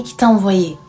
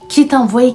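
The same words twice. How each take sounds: First: Tearful repeat. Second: Pitched high and loud, rising in disbelief; retold wife crying out at the painter; anguished outcry. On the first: Retold or imitated. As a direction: let the question sink back down in tears. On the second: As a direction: cry the question out at him, desperate. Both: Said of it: "elle est restée à pleurer et à dire au mec".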